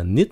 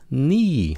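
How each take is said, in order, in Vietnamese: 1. Nguyên âm trong "need" không phải là âm ee dài. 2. Nguyên âm trong "need" là âm ee dài. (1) "không phải là need nha" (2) "Ý"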